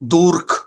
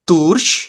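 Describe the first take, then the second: First: The ch is a harsh throaty kh sound. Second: The ch is a soft hissing sh-like sound. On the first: The speaker calls it wrong. "ये गलत है" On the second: The speaker calls it right. "ये साउंड कर रहा है श"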